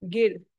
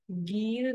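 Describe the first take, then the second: First: गिर with a short i; quick short vowel in गिर. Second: गीर with a long, stretched ee; wrong take गीर, held long ee. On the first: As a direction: say गिर with a brief vowel, not गीर. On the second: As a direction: draw out the vowel in गीर. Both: Shown as a demonstration. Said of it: "गीर नहीं है".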